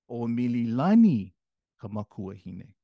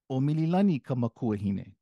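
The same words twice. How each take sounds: First: The name at the start is strongly stressed. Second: The name at the start is said plainly.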